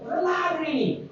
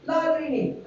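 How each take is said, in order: First: High, fast Egyptian villager shrug. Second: High Egyptian villager shrug, plainly repeated; clueless Egyptian villager patient again. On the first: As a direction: play a clueless Egyptian villager patient. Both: Retold or imitated. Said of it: "they speak like this".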